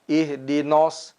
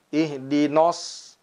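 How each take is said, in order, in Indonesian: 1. Vokal nun terdengar berat dan membulat. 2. Vokal nun terdengar berat dan membulat.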